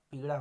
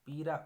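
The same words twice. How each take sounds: First: Said in the usual way. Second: पीरा with a plain 'r'; r for flap. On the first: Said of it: "होता है". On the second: Shown as a demonstration. Teacher showing a mistake, पीरा with simple r. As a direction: say 'pee-raa' for पीरा. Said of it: "पीड़ा होता है".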